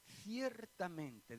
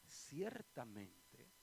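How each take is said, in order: First: "Ciertamente" drawn out very slowly and falling; slow, weighty "Ciertamente" as Jesus' emphasis; slow emphatic ciertamente. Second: "ciertamente" stretched very slowly with a rising end; drawn-out ciertamente. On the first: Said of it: "es otra forma en la que Jesús remacha, recalca". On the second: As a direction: let "ciertamente" hang, slow and rising. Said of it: "Cuando en la Biblia ustedes oigan a Jesús decir". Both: Shown as a demonstration.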